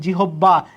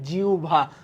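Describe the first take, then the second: First: The middle is said as a doubled 'bb' sound. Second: The middle is said as a soft 'ubha' sound. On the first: The speaker calls it wrong. "এটার নাম জিহব্বা না" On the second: The speaker calls it right. "এটার নাম জিউভা।"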